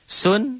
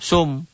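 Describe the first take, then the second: First: The syllable ends in an n sound. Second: The syllable ends in a soft m sound.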